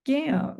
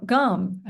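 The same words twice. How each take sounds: First: Gam with a full short A, as spelled; spelling pronunciation. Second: Gum with a schwa, an "uh" vowel; everyday pronunciation. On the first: Teacher answering on the last syllable, spelling pronunciation. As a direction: say Gam with the vowel of "ham". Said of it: "I said gam". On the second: Teacher correcting the last syllable, everyday pronunciation. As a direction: say gum like chewing gum, not gam. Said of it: "we really say gum". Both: Shown as a demonstration.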